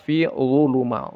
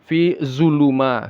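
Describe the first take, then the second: First: The consonant is a heavy th sound. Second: The consonant is a heavy buzzing z sound. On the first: The speaker calls it right. "Dia zal yang ditebalkan" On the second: The speaker calls it wrong. "dibaca seperti zai yang ditebalkan"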